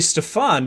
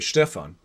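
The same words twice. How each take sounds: First: The stress is on the second syllable. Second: The stress is on the first syllable. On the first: This is the way the name's owner says it. "also you say Stefan" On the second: This is how it would be said in German. "in German you would say you would probably emphasize the first syllable. You'd say Stefan"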